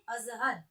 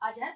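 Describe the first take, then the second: First: The middle consonant is a z sound. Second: The middle consonant is a j sound. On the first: The speaker calls it right. "अज़हर क्या बोलेंगे?" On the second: The speaker calls it wrong. "अजहर पढ़ेंगे नहीं"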